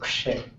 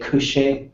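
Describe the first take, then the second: First: The first two consonants run together quickly. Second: A short vowel separates the first two consonants. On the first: "a lot of speakers would say Kshe. So it comes out kind of fast" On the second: "some speakers would say Kushe"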